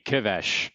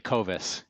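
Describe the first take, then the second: First: The name is said in its original Hungarian form. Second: The name is said in its anglicized form. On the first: This is the name's original pronunciation. "It should be Kivesh" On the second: This is how the family says the name now. "it's actually Covis"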